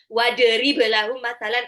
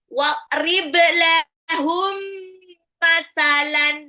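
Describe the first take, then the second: First: The m sound is short, not held. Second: The m sound is held long and nasal. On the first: The speaker calls it wrong. "Jadi kayak pasti bacanya nanti jadi" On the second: The speaker calls it right. "Mim sukun ketemu mim harus ditahan"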